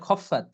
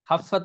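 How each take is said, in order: First: The first vowel is a rounded 'o' sound. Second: The first vowel is an open 'a' sound. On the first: The speaker calls it right. "এটা খফফাত" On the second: The speaker calls it wrong. "খাফফাত না"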